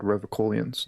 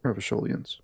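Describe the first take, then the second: First: Revacholians with a hard K; hard K pronunciation. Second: Revacholians with a soft SH; SH pronunciation. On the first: Streamer corrects the name, Revacholians with a K sound. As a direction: say Revacholians as "reva-KOH-lians", K not SH. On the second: Streamer shows the rejected name, Revacholians with an SH sound. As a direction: say Revacholians as "reva-SHOH-lians", SH not K. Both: Shown as a demonstration. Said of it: "it's called Revacholians, not".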